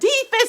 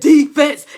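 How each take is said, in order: First: It is said in a small squeaky voice. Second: It is said in a deep booming voice.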